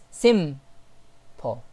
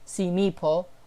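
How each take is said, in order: First: The M is held with no following vowel. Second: An extra i vowel follows the M sound. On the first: The speaker calls it right. "It's simple. So here we can see that the sound stays on the letter M and pauses there" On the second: The speaker calls it wrong. "it's not simple, simipo"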